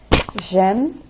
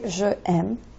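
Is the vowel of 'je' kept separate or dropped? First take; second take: dropped; separate. First: The first vowel drops and the sounds slide together. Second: Both vowels are said separately, no linking. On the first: The speaker calls it right. "so that it just slides" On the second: The speaker calls it wrong. "you don't say je aime"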